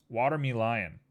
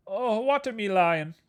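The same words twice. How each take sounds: First: Said in the usual way. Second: Sung, higher, slow sing-song. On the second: Pretend. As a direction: croon it lovingly. Repeats word, sing-song.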